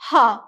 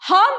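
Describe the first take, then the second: First: The Huh sounds disappointed. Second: The Huh sounds excited and happy.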